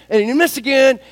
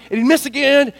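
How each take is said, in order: Both takes have the same delivery.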